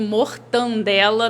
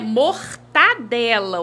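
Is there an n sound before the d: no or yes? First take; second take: yes; no. First: It is said with an n before the d. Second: It is said without an n before the d. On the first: The speaker calls it wrong. "a gente coloca aí um Nzinho" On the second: The speaker calls it right. "o certo"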